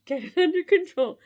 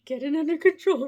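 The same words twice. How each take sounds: First: Giggly and louder; losing it while saying it; laughing. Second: Fighting back giggles; trying to stop laughing. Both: Real, not acted. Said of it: "I can't do it".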